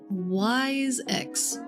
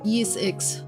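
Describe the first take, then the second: First: The first word rhymes with 'eyes'. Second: The first word rhymes with 'ease'. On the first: The speaker calls it wrong. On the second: The speaker calls it right.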